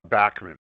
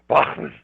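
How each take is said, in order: First: It is pronounced the Canadian way. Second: It is pronounced the German way. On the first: "In Canada, we grew up saying" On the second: "In Germany, they say"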